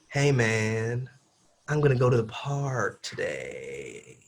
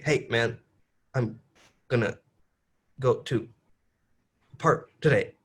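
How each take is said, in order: First: It is said smoothly, words flowing together. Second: It is said choppily, words cut apart.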